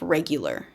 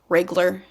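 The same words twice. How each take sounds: First: All syllables are said, giving three syllables. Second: A syllable is dropped, giving two syllables. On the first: The speaker calls it right. "instead of regular" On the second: The speaker calls it wrong. "shortening words like"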